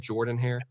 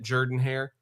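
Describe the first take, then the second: First: Jordan is pronounced the standard American way. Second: Jordan is pronounced the local Auburn way. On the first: The speaker calls it right. "the real American way" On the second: The speaker calls it wrong. "the weird wrong way that Auburn people say it"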